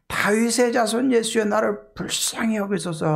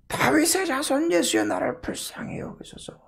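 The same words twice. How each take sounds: First: High, pleading call for mercy; crying out. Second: Very high, strained cry, falling away to voiceless; desperate plea, acted at a higher pitch; crying out louder. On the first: Acted. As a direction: call out to someone passing by. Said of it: "하고 소리를 지르게 돼요". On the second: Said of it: "더 크게 소리 질러요".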